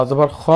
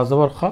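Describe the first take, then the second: The two takes are said the same way.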